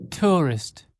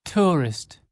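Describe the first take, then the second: No difference in how they are said.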